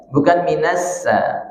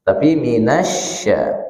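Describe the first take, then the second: First: Minassa said with a plain s; wrong example. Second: Minasya with a clear sh; correct shin. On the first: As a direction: show the mistake, s instead of sh. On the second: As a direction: say minasya with the sh from mid-tongue. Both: Shown as a demonstration.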